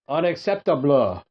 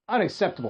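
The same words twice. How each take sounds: First: It is said in a put-on French accent. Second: It is said in the speaker's ordinary accent.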